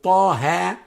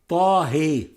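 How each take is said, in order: First: The final vowel is a full open 'a'. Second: The final vowel is inclined toward 'e'. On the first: "not taha, like in Hafs" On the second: "example of imala kubra, or major inclination in Warsh"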